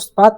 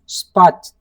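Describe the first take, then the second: First: The word ends with a plain t sound. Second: The word ends with a ch sound. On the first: The speaker calls it wrong. "not the" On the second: The speaker calls it right. "The becomes ch"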